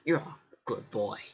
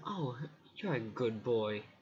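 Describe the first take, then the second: First: It is said in a mean tone. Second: It is said in a kind, happy tone.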